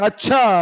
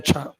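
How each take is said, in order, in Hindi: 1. इसे प्रश्न पूछने वाले लहजे में कहा जाता है। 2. इसे सादे, सहमति वाले लहजे में कहा जाता है। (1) "मतलब पूछ रहे" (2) "नॉर्मली हमने कह दिया अच्छा"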